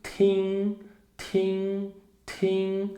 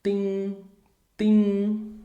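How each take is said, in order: First: "tim" with a puff of air on the t; aspirated tim. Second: "tim" with a crisp t and no breath; unaspirated tim. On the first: Teacher demonstrating the aspirated "tim" to learners. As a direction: blow the t of "tim" out. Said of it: "Agora, assoprado". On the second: Teacher demonstrating the unaspirated "tim" to learners. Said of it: "nós temos aqui". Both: Shown as a demonstration.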